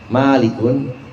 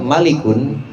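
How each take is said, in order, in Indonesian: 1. Vokal pertama diucapkan panjang. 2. Vokal pertama diucapkan pendek.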